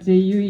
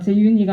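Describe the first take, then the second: First: The name is said without the n sound. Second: The name is said with a clear n sound. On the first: "제유이 이렇게 발음하셨던" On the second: "재윤이가 아니고"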